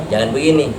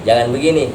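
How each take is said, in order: The two takes are said the same way.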